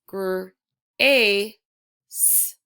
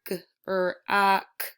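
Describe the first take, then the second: First: The word is sounded out ending in an s. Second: The word is sounded out ending in a k. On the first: The speaker calls it right. "No, it's" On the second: The speaker calls it wrong. "I wouldn't say this word"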